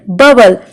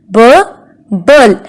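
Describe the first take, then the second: First: Said in the usual way. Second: "B, bul" with a clear gap between syllables; split into syllables. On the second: Shown as a demonstration. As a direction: break bubble into "B" and "bul". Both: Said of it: "How many vowels can we hear".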